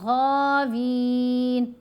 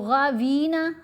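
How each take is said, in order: First: The word ends on a bare n sound. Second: The word ends with an added vowel after n. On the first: The speaker calls it right. "नून को साकिन करेंगे" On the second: The speaker calls it wrong. "गावीना हमने नहीं किया"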